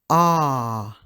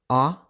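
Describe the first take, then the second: First: The vowel is held for longer. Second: The vowel is held only briefly. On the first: "Long sound" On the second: "Short sound"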